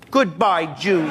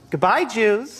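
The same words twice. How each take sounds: First: It is said with more anger. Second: It is said mildly, without anger.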